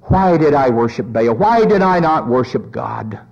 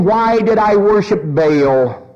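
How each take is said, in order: First: Low, sinking acted regret; subdued lament. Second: Slow, drawn-out acted wail of regret; lamenting cry. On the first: Jezebel in hell repeating her regret, low subdued lament. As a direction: drop low into mild remorse. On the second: Jezebel in hell regretting her idol worship, drawn-out mock lament. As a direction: stretch out a mildly anguished question. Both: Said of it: "if we could hear her cries".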